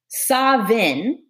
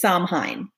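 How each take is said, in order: First: It is said the Scottish Gaelic way. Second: It is said the American way. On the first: "the ancient Scottish Gaelic version of this" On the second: "the American version is"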